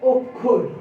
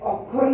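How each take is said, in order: First: It is pronounced in the standard form. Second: It is pronounced following the spelling. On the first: The speaker calls it right. "শুদ্ধ উচ্চারণ হবে অক্ষর" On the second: The speaker calls it wrong. "এই অক্ষর না হয়ে"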